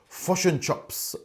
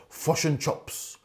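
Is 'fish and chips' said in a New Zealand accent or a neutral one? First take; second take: New Zealand; New Zealand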